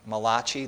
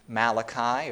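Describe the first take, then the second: First: The name is said with an Italian-sounding pronunciation. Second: The name is said with an ordinary English pronunciation.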